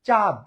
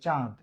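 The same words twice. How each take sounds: First: The vowel is said without nasal sound. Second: The vowel is said through the nose. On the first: It names the African country. "তাহলে কিন্তু এটা একটা দেশের নাম" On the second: It names the moon in the sky. "নাক থেকে চাঁদ"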